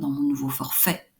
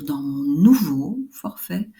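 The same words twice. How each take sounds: First: The words are linked, with stress at the end. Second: The words are separated, without a final phrase stress. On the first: The speaker calls it right. "Je mets l'accent là et je mets les deux ensemble" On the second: The speaker calls it wrong. "je ne vais pas dire"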